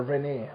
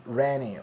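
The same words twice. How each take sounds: First: "Rene" with an ay ending; alternative pronunciation. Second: "Rene" stressed up front, ending in ee; first-syllable pronunciation. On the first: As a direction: say "Rene" as rih-NAY. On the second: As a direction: say "Rene" as REN-ee. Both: Shown as a demonstration. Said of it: "How would you say that".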